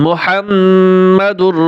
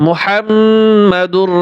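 No difference in how they are said.

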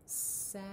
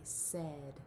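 First: The vowel is said like the 'a' in 'sad'. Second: The vowel is said like the 'e' in 'bed'. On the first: It is the word sounded out letter by letter. "when we sound it out, it should sound like this" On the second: It is the word as it is normally spoken. "when we say this word, we say said"

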